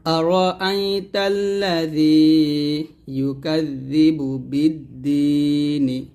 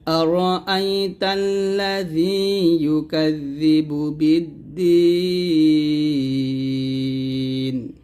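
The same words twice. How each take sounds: First: Slow chant with the final short "ni" sounded in বিদ্দীনি; joined, voweled ending. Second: Slow chant, holding বিদ্দীন very long onto a closed n; pausal ending. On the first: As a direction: recite as one phrase, ending বিদ্দীনি on an open i. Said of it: "একসাথে হবে". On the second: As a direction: stop on বিদ্দীন with a long "deee" and no final vowel. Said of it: "যদি এখানে থামেন তাহলে বলতে হবে". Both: Shown as a demonstration.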